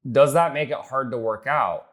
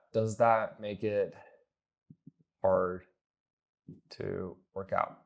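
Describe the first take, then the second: First: "hard to work out" as one slow, higher-pitched run; wrong pitch delivery. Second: Very slow, long pauses around "hard"; exaggerated halting delivery. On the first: Coach demos the transition question to a client, raised deliberate delivery. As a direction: ask "Does that make it hard" in a raised, deliberate flow. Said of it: "Now, I don't say it like that". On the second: Coach shows how not to ask prospects, halting and drawn out. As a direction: break it up: "Does that make it... hard... to work out", dropping softer. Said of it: "I don't say it like that".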